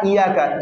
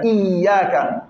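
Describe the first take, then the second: First: Iyaka with a single, light ya; wrong single ya. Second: Iyaka with the ya doubled and pressed; correct doubled ya. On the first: Teacher shows students the common mistake. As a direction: say Iyaka the wrong way, ya not doubled. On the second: Teacher shows students the correct form. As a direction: give Iyaka its full double ya. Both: Shown as a demonstration. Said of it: "Pas Iyaka".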